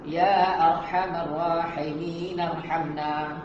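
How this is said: It is read quickly, running straight into the last word. "Biasa kalau baca laju kita terus sambung"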